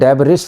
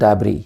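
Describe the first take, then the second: First: The word ends with an audible s sound. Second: The word ends without any s sound. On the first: The speaker calls it wrong. "आप इसे डेबरिस नहीं बोलेंगे" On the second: The speaker calls it right. "एस silent रहता है इसके अंदर"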